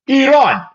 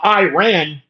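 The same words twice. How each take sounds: First: It is said with an Arabic accent. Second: It is said with an American accent. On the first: The speaker calls it right. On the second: The speaker calls it wrong. "No, it's not"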